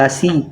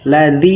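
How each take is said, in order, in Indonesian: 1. Konsonan tengah terdengar seperti s. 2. Konsonan tengah terdengar seperti d. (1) "jangan lasi" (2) "Ladi, jangan lasi"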